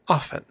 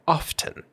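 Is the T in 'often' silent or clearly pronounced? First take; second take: silent; pronounced. First: The T sound is silent. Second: The T sound is strongly pronounced. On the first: "Most often, we will say often" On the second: "that T is very strong"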